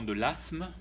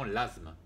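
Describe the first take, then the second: First: « asthme » dit « assme », s sourd; asthme avec s. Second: « asthme » dit « azme », s voisé en z; asthme avec z. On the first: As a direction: dire « asthme » avec un s sifflé. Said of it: "certains diront". (« asthme » prononcé « assme ») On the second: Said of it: "d'autres diront l'asthme". (« asthme » prononcé « azme ») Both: Shown as a demonstration.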